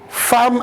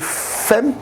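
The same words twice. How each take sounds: First: The vowel is pronounced like an open 'a'. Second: The vowel is pronounced like an 'e'. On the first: "on prononce euh, femme" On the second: "à la place de femme"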